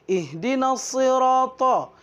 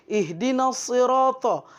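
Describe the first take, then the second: Both takes have the same delivery.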